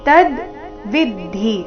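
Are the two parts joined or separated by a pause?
separated. The two parts are said with a break between. "ಇಲ್ಲಿ ತ ಆದ ನಂತರ ಅರ್ಧದಕಾರ"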